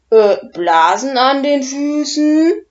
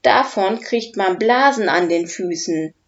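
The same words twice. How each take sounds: First: "Blasen an den Füßen" asked loud and high, rising in disbelief; baffled question. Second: Said in the usual way. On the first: Acted. Dragon Udo baffled by Oskar's warning about blisters. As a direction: repeat "Blasen an den Füßen" as if it makes no sense. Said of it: "fragt Udo verblüfft".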